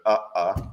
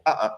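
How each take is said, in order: First: Two lone beats, UH and UH, each standing apart; two separate syllables. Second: "uh, uh" run together as a single word; one two-syllable word. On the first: Teacher sounding out two short words for the count, two separate syllables. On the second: Teacher sounding out one longer word for the count, two joined syllables. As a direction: join UH to UH in one quick unit. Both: Shown as a demonstration. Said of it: "two ones or two".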